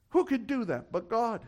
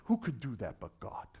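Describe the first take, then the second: First: Higher, more pointed repeat; raised rhetorical question. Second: Low, soft rhetorical question; hushed awe. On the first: Preacher pressing the question on the congregation, raised pitch. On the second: Preacher marvelling at what God does, hushed and low. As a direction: ask it low, falling away on God. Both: Real, not acted.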